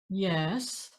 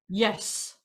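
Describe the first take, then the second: First: Uncertain, a small contour mid-voice. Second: Definite, one short strong single note.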